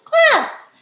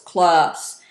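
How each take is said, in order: First: The word is said in a high voice. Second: The word is said in a low voice. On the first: "a high-pitched tone of voice" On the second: "in a low tone of voice"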